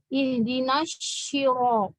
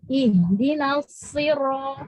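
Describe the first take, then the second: First: The consonant is a 'sh' sound with curved tongue. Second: The consonant is a heavy s, tongue back raised. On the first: The speaker calls it wrong. "Jadi kebawahnya ke shin" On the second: The speaker calls it right. "so juga cuma pangkalnya naik"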